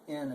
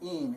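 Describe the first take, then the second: First: The vowel is a short i sound. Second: The vowel is a long ee sound. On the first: "but you can say in in, and you'll be just fine" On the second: "it's actually more like an een"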